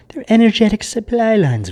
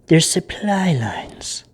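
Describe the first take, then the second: First: Said in the usual way. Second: Slow, breathy secret whisper; hushed, half-voiced warning. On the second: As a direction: lean in and let them in on a secret. Secretive reveal in tarot reading.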